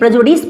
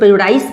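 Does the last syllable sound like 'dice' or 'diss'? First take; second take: diss; dice. First: The last syllable ends like 'diss'. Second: The last syllable ends like 'dice'. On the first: The speaker calls it right. "इसे इसे प्रेजुडिस पढ़ें" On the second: The speaker calls it wrong. "इसे कुछ लोग प्रेजुडाइस पढ़ते हैं"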